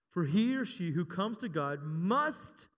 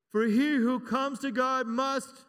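First: Slow, drawn out, waiting for the crowd; slow call for a response; slow prompting read. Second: Louder, slow call for a response; slow, loud preacher's prompt. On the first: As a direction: stretch it out so they fill the word in. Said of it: "what's that word?". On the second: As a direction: raise the voice and drag the line for them to answer. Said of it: "I wanna hear ya". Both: Shown as a demonstration.

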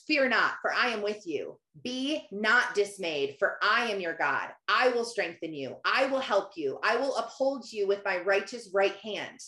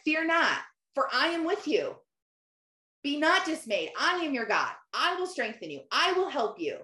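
First: Measured, low-key verse recitation; scripture reading. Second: Higher-pitched, emphatic answer in short separate promises; God. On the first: Shown as a demonstration. Quoting Isaiah to listeners, measured scripture reading. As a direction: read the verse steadily, each promise on its own. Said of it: "Isaiah forty-one ten says". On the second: Retold or imitated. God answering her doubts, imitated with firm assurance. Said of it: "God literally answered me and said".

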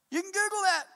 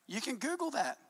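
First: Emphatic shout. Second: Said in the usual way. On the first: Real, not acted. Repeats line, second time shouted.

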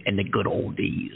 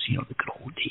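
First: Said in the usual way. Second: Hushed wistful whisper. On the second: Acted. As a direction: breathe it like a fond memory. Repeats phrase in whisper.

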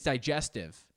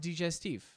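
First: "digestive" said the English way, die-JES-tiv; English pronunciation. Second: "digestif" said the French way, dee-jes-TEEF; French-style pronunciation. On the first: Podcaster correcting himself on the word, "digestive" as die-JES-tiv. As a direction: say "digestive" with a die start and -iv ending. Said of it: "I think it's digestive". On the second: Podcaster showing his own habit, "digestif" as dee-jes-TEEF. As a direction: say "digestif" with a dee start and long -eef ending. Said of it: "but I pronounce it digestif". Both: Shown as a demonstration.

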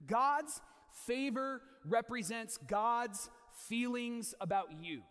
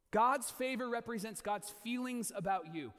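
First: God's and favor drawn out slowly; slow emphatic statement. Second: Said slowly, stress on God's; slow emphasis again. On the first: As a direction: weigh each word of the line. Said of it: "repeats the line". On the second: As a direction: repeat it slowly so it lands. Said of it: "repeated for emphasis". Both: Shown as a demonstration.

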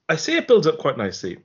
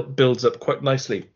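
First: Qualify it by punching say; stress on say. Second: Said in the usual way. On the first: Real, not acted. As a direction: say pushed higher, with a falling accent.

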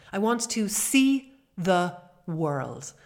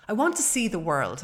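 First: Slow, stretched, every word weighted; drawn-out emphasis. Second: Said in the usual way. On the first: Shown as a demonstration. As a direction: stretch out "I want to see the world" for emphasis. Said twice, first slowly stressed.

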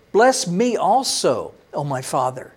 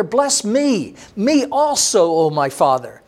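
First: Slow pleading. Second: Higher, a mild mock plea that drops on the last words; bitter pleading cry. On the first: Acted. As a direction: draw the plea out, then let it sink away. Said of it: "Esau lifted up his voice and he cried". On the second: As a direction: beg your father lightly, then let it fall. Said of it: "he cried out with an exceedingly great and bitter cry".

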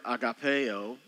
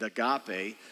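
First: "agapeo" said slowly, ending in an added o; Greek form. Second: "agape" ending on an ay sound, without the o; familiar pronunciation. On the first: Pastor introduces the Greek word to congregation, "agapeo" carefully pronounced. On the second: Pastor gives congregation the familiar form, "agape" ending in ay. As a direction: say "agape" as the familiar Greek loanword. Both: Shown as a demonstration. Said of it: "you've heard it pronunciated agape".

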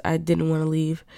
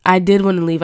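First: Said in the usual way. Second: "did" punched hard and loud, correcting herself; stress on did. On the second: Real, not acted. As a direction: hit the word "did" to set the record straight.

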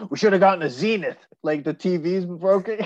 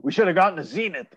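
First: Grumpy neighbor. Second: Quick, put-on grumble from a sour old neighbor; grumpy neighbor. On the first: Retold or imitated. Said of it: "he's like". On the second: Friend imitating the TV-obsessed neighbor for a co-host, quick grumbling. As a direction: mimic the neighbor's fast grousing about his TV. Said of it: "I've never heard anyone go".

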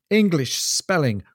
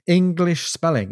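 First: Said in the usual way. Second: English spelling pitched higher and drawn out slowly; exasperated repeat. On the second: Acted. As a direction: throw up your hands at English spelling, higher and slower.

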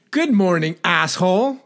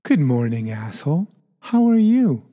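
First: High-pitched greeting, rising on "asshole"; contrasting-intent demo. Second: Friendly-intent demo. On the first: Host showing the other intent of the same words, pointed high greeting. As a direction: pitch the whole greeting up high with a lift at the end. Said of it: "Or I can say". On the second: Host showing intent changes an insult, friendly greeting. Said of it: "the intent behind them that is very powerful". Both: Shown as a demonstration.

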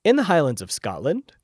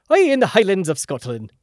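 First: Said in the usual way. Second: Put-on joking, louder, higher Scottish accent that slips towards Irish; botched Scottish brogue, pitched up; mock Scottish accent. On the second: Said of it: "That was more Irish".

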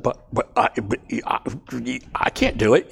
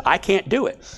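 First: Halting stammered protest; a mild stammering refusal; stuttering. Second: Said in the usual way. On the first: Retold or imitated. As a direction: trip over the words like Moses. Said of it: "He stuttered". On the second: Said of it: "He literally stuttered and said".

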